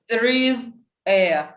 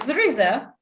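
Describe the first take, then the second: First: The words are said separately, one by one. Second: The words are linked together smoothly. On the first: The speaker calls it wrong. "We don't say" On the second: The speaker calls it right. "We say"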